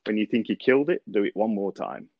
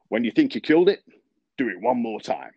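First: Said in the usual way. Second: Southern drawl, pitched higher and louder on the punchline. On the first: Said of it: "that was a real insight". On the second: Retold or imitated. Old superintendent answering Billy about verticutting, in southern drawl. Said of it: "it has to be said really in a southern drawl".

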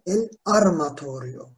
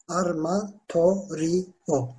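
First: Said in the usual way. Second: "Armatorio" slowly, in separate syllables. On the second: Shown as a demonstration. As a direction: break "Armatorio" into drawn-out syllables. Teacher breaks the word into syllables. ("Armatorio" kelimesini yavaşça hecele)

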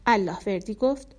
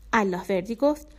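Both takes have the same delivery.

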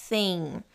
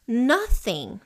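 First: "Thing" with the tongue between the teeth; th sound shown. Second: Said in the usual way. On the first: Shown as a demonstration. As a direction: say the TH in "Thing" as a soft lisped th. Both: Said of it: "Tem um T H aqui".

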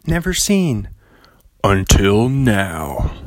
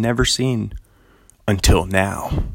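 First: Slow dramatic movie trailer read. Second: Said in the usual way. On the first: Shown as a demonstration. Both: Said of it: "that movie guy voice".

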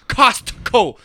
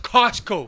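First: Put-on "Costco" said as the Utah girl says it, raised; regional pronunciation. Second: Said in the usual way. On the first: Imitating a Utah girl, "Costco" in her regional pronunciation. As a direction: mimic her odd "Costco", both syllables drawn out. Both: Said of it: "Instead of Costco".

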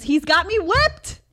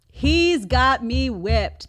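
First: Loud, high outburst; exasperated exclamation. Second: Loud, drawn-out words; slow emphatic repeat. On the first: Mom admits her kid controls her, loud exclaiming. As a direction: burst out with it, pitched up. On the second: Mom repeats admission about her kid, slow emphatic delivery. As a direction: spell it out slowly and firmly. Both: Real, not acted.

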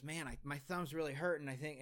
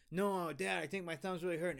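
First: Said in the usual way. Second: Higher, pleading little brother, fast; little brother begging his dad to stop; whiny kid. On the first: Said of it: "my little brother goes". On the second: Retold or imitated. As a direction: imitate a hurt kid whining.

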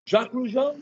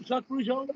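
First: Calling the name out high, like an attendant scanning the cabin; a mock attendant's call down the aisle, pitched up; flight attendant calling. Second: The same name again, high and much softer, asking; softer questioning call. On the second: Retold or imitated. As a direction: lean in and check quietly, voice still up. Flight attendant calling his name.

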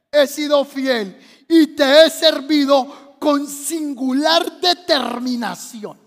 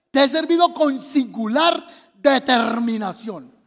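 First: Slow, drawn-out pleading prayer; tearful plea. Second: Slow, measured stress on "singular determinación"; emphatic re-reading. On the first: Acted. Preacher as Ezequías reminding God of faithful service, tearful plea. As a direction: plead earnestly, tailing down at the end. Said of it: "empezó a llorar y le dijo". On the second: Shown as a demonstration. Preacher shows congregation the verse, deliberate emphasis on "singular determinación".

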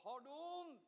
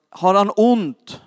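First: Imitating the wife, faint and high; very soft, far-off voice; distant relayed question. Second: Said in the usual way. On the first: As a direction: ask it as if turned away from the phone. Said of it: "Hon frågade". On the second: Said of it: "Jag sa".

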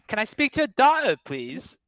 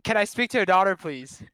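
First: High, loud stab at British posh; overdoing a British accent badly; a bad British accent, asking for the daughter; attempted British accent. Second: A slightly calmer bad British accent; same line again in a weak British accent; repeated British accent try. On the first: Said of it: "can you give me a line right now". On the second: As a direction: say it again clearer, still mock British. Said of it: "what were you trying to say".

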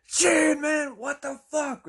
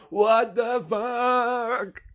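First: High mock shout, drawn out; astonished reaction. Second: Very slow, high, loud mock shout; excited echo. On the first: Truck driver reacts to blown-out windows, imitated in high astonishment. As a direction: exclaim it in stunned disbelief. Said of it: "The truck driver is then like". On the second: Henry echoes the truck driver, imitated in a long excited shout. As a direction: stretch every word into a huge yell. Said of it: "he's almost like an emphasizer".

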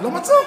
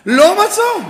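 First: Said in the usual way. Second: Louder, higher punch on the repeat; emphatic repeat. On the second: Real, not acted. Rabbi repeating to his students, loud emphatic punch. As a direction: land it hard on the crowd.

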